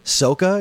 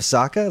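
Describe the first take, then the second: First: The name is said with the movie's pronunciation. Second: The name is said with the cartoon's pronunciation. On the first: This is how the film adaptation says the name. The speaker calls it wrong. "They mispronounce all the characters' names" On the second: This is how the original show says the name. The speaker calls it right. "instead of"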